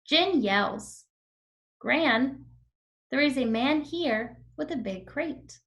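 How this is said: Short pauses break up the sentence. The speaker calls it right. "Let me do it one more time with the comma"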